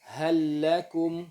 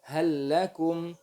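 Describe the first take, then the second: No difference in how they are said.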